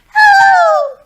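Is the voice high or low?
high. It is said in a very high voice.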